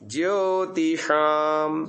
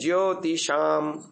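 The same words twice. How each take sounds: First: The sh is made with the tongue curled back. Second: The sh is made against the hard palate. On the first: The speaker calls it right. "थोड़ा जबान को पीछे आकुंचन करके ऊपर फेंकने से बिल्कुल सटीक उच्चारण" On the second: The speaker calls it wrong. "पहला कैसे उच्चारण करते थे? ... शाम होता था, वो तालों पे होता था"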